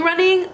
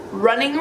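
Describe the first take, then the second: First: "running" pitched much higher with emphasis; stressed running. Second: Said in the usual way. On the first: Shown as a demonstration. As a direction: punch "running" to mean real running. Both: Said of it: "but not, like, running".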